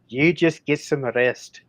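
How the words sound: It is spoken with a Scottish accent. The speaker calls it wrong. "for the south you're doing a Scottish accent?"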